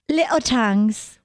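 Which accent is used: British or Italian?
British. It is said in a British accent. "Why do you do it with a British accent?"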